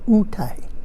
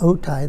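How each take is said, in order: First: The word begins with an 'oo' sound. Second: The word begins with an 'oh' sound. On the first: This is how the local people say it. The speaker calls it right. "they pronounce it utai" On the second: This is not how the local people say it. The speaker calls it wrong. "the kumeyaay don't pronounce it otai"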